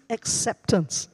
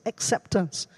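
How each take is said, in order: No difference in how they are said.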